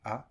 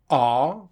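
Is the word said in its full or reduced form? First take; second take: reduced; full. First: The word is reduced to one weak sound. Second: The word is said in its full form. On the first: "just this, this one sound" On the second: "auxiliary verbs like are becomes a"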